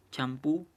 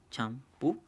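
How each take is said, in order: First: Said in the usual way. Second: Champú broken into cham, pú; split into syllables. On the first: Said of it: "por ejemplo aquí". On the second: Shown as a demonstration. Teacher dividing a second example, champú syllable by syllable. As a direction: say champú as two separate syllables with a pause between. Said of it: "en dos también".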